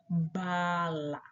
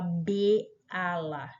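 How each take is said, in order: First: It begins with just the short 'b' sound. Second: It begins with the full letter name 'bê'. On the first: The speaker calls it right. "Você fala ba, ba, bala" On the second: The speaker calls it wrong. "você não fala B ala"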